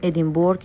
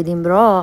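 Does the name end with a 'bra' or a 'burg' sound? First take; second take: burg; bra. First: The name ends with a full 'burg' sound. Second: The name ends with a short 'bra' sound. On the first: The speaker calls it wrong. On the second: The speaker calls it right.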